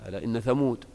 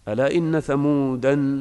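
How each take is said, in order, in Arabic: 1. ينتهي الاسم بصوت 'd' ساكن. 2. ينتهي الاسم بحركة 'a' زائدة. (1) "تقف عليها بدون ألف" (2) "هذه قراءة الجمهور للتنوين"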